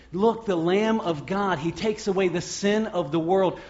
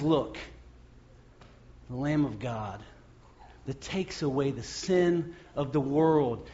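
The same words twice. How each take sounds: First: Said in the usual way. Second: Hushed awe. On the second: Acted. John to the crowd, hushed and awed. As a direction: say it softly as if struck by wonder.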